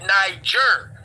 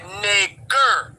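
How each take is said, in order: First: The middle consonant is a soft j sound. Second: The middle consonant is a hard g sound. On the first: It is the original pronunciation. "we pronounced it Niger" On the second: It is the outsiders' version of the word. "they didn't go j, they went g"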